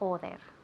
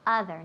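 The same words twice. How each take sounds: First: The first vowel sounds like an o. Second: The first vowel sounds like an a. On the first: The speaker calls it wrong. "not other" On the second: The speaker calls it right. "first O sounds like an A"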